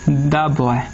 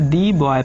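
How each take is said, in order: First: 'The' is said with a short 'uh' vowel. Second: 'The' is said with a long 'ee' vowel. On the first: The speaker calls it right. "द boy पढ़ेंगे" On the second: The speaker calls it wrong. "फिर देखिए मैं गलत पढ़ दिया"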